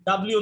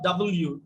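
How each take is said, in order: First: The letter name is squeezed into one blended word. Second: The letter name is said as two separate parts. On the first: The speaker calls it wrong. "ডাব্লিউ না" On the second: The speaker calls it right. "ডাবল ইউ, মনে থাকবে"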